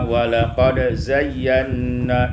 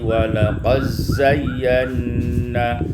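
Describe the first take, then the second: First: The d is pronounced before the z. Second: The d merges into a doubled z.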